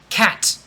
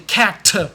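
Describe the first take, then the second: First: The final T has a slight audible release. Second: The final T is strongly and clearly released. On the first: "a little bit of a T" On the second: "you should never say cat. Never do that"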